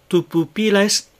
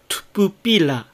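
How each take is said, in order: First: Every u vowel is clearly voiced. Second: The vowel in tu is devoiced. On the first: The speaker calls it right. "いずれのうもはっきりと声を出して発音してください" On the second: The speaker calls it wrong. "tu のうが無声化して"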